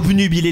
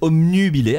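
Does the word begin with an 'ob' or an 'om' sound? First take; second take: ob; om. First: The first syllable has a B sound. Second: The first syllable has an M sound. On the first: The speaker calls it right. "il faut dire obnu" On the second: The speaker calls it wrong. "les gens disent obnubilé avec un M"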